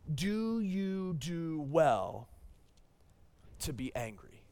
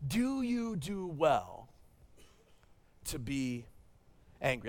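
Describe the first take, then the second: First: God's gentle question. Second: Repeated question of God. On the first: Pastor voicing God's question to angry Jonah, slow and hushed. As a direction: let each word hang, a calm divine rebuke. God's reply read slowly. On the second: Pastor repeating God's question to Jonah, slow with long pauses. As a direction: stretch it out and let it sink in. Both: Acted.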